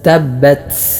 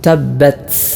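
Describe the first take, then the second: First: The final t ends with a strong hiss of air. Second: The final t ends with a strong hiss of air.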